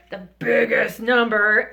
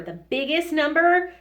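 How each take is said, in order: First: Loud, slow, hammed-up big voice; big boss voice. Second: Said in the usual way. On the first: Shown as a demonstration. Teacher has everybody copy the biggest number, big and loud. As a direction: boom it out slowly for emphasis. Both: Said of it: "everybody do it".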